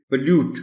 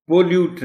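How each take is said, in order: First: "پولیوٹ" as puh-LUTE, schwa first, high; correct pronunciation. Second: "پولیوٹ" as POH-lute, full O, high; wrong pronunciation. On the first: Teacher giving the right form, "پولیوٹ" as puh-LUTE. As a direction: say "پولیوٹ" with a short uh after p. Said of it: "اے sound ہے". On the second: Teacher showing the error, "پولیوٹ" as POH-lute. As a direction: say "پولیوٹ" with a clear oh. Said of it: "پولیوٹ نہیں". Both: Shown as a demonstration.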